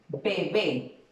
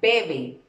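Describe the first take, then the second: First: The stress is on the last syllable. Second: The stress is on the first syllable. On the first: "lleva acento en la última sílaba" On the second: "Si yo le quito el acento, ¿cómo diría?"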